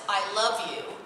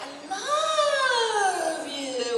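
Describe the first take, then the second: First: The word love is said at normal length. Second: The word love is drawn out long.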